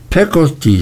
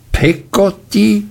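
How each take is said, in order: First: Said in the usual way. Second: Peggotty repeated much higher, outraged; aunt repeating the maid's name, indignant. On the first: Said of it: "sagte meine Mutter". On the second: A narrator's reading. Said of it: "wiederholte Miss Betsy entrüstet".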